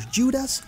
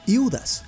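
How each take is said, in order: First: The name is said with an English pronunciation. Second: The name is said with a Cypriot Greek pronunciation.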